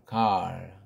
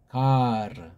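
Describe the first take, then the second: First: It is one syllable ending in a rolled r. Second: It is two syllables with a vowel after r. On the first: The speaker calls it wrong. "서양 애들은 또 그런 에, 의자라는 모음이 없다 보니까 갈" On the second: The speaker calls it right. "우리는 이건 가르"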